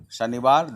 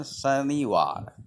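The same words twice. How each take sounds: First: Said in the usual way. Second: Drawn-out "Shaniwar", syllable by syllable; pronunciation demo. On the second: Shown as a demonstration. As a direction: say "Shaniwar" with long, separated syllables. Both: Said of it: "the pronunciation".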